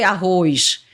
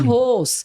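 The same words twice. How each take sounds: First: It ends with an added i and sh sound. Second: It ends with a plain s sound, no glide. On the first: The speaker calls it wrong. "Não tem um i depois, nem um, um ix no final" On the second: The speaker calls it right. "é arroz"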